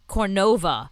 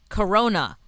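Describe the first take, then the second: First: The word has an extra n sound inside. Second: The word has no extra n sound inside. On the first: The speaker calls it wrong. "you called it Cornova?" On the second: The speaker calls it right. "It's Corona"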